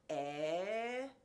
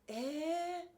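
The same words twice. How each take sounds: First: It is said in a doubtful, objecting tone. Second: It is said in a pleased, delighted tone. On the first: The speaker doubts or objects to the news. "You might have a little bit objection, like eh, like what" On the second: The speaker welcomes the good news. "if it's a good news, eh"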